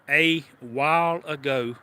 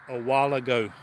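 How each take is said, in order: First: The three words are said separately and clearly. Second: The words merge into one word, like "walla go." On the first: "instead of saying a while ago" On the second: "I got the Walla like Walla Walla, Washington"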